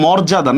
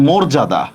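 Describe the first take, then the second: First: মর্যাদা with an open "aw", mawr-ja-da; wrong open vowel. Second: মর্যাদা with a rounded "o", mor-ja-da; correct o vowel. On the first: Teacher rejecting the spelling reading, মর্যাদা with open "aw". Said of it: "এটা মর্যাদা না". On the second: Teacher giving students the right form, মর্যাদা with closed "o". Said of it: "এটা মর্যাদা". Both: Shown as a demonstration.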